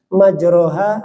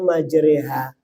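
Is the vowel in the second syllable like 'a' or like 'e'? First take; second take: a; e. First: The second syllable has an open 'a' vowel. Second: The second syllable has an 'e' vowel.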